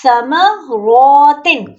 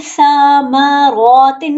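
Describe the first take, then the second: First: समरौतिन with only रौ long, very slow; correct reading. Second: समरौतिन with the final तिन also stretched; wrong reading demo. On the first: Teacher corrects the mistake, slow recitation. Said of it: "नहीं". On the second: Teacher imitates students' common error, drawn out. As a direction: mimic the mistake, stretching every vowel in समरौतिन. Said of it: "वो पढ़ते हैं". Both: Shown as a demonstration.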